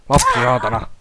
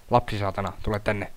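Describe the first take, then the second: First: Louder curse. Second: Said in the usual way. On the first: Real, not acted. Gamer yelling at the child enemy, louder curse. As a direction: bark "Lapsi saatana" out loud at the screen.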